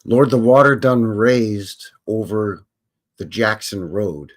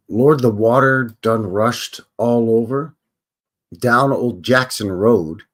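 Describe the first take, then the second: First: Slow, drawn-out blues phrasing; slow imitation of the singer. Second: Slow drawn-out blues talk; slow imitation of the singer. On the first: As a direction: stretch each word like the record. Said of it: "So now we into Jackson". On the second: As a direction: drag the line out like the old singer. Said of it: "he says".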